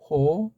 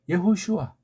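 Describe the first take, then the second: First: The name is said as yeo-ho-su-a. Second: The name is said as ye-ho-shu-a. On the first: This follows the Japanese-based rendering. The speaker calls it wrong. "바람 빠진 일본 소리" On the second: This is closer to the original sounds. The speaker calls it right. "우리 정음 좀 섞어서 읽으면 예호슈아"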